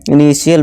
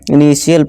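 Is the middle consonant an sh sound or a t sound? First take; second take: sh sound; sh sound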